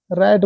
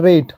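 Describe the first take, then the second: First: रैट, vowel as in "cat"; short ऐ in रैट. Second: रेट, vowel as in "day", final E silent; long ए in रेट. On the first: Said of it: "रैट बोलते हैं उसको". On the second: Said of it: "R ए T, रैट बोलते हैं". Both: Shown as a demonstration.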